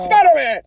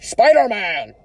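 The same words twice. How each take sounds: First: Higher, punchier second attempt at a blustering boss; high exclaimed amateur impression; J. Jonah Jameson. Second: Attempted blustering boss voice, drawn out; J. Jonah Jameson. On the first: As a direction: shout it high in a put-on voice. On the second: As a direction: call it out in a put-on voice at usual pitch. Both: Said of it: "a Jameson impression".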